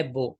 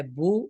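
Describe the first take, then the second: First: بو said with "oh", as "bo"; majhool vowel. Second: بو said with "oo", as "boo"; maroof vowel. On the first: Teacher contrasts Urdu with Arabic, majhool "bo" for بو. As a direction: say بو with an open Urdu "oh". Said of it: "مجہول ہے بو". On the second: Teacher contrasts Arabic with Urdu, maroof "boo" for بو. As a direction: say بو with a close Arabic "oo". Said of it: "تو معروف ہے بو". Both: Shown as a demonstration.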